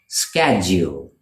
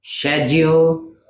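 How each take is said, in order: First: "schedule" with a sk, falling; American sk at the start of "schedule"; American pronunciation. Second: "schedule" with a sh, higher, held up for contrast; British sh at the start of "schedule"; British pronunciation. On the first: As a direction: say "schedule" as SKED-jool. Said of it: "in American English". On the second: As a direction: say "schedule" as SHED-yool, slowly. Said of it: "versus schedule". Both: Shown as a demonstration.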